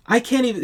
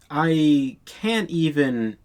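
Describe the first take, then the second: First: Much higher, louder I can't even; exasperated burst. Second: Slow, drawn-out I can't even; drawn-out disbelief. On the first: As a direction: jump up in exasperation. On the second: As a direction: let the words sag in disbelief. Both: Real, not acted.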